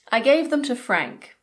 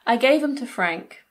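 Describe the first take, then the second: First: The 'th' sound at the start of 'them' is kept. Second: The 'th' sound at the start of 'them' is dropped. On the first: "Them is often reduced to them" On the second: "or even"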